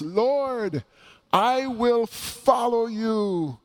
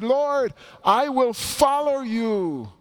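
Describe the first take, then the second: First: High, slow, eager cry from the crowd; exuberant voice. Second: Much higher, slow, even more eager plea from a second follower; another eager voice. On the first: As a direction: call out "Lord, I will follow you" with eager zeal. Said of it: "an exuberant voice". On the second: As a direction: pitch the second voice up high, pleading and keen. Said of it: "another voice that speaks up". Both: Acted.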